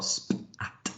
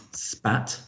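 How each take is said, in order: First: "spat" split slowly into separate letter sounds; sounded out. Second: Said in the usual way. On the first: Shown as a demonstration. Teacher showing a word to blend, "spat" segmented.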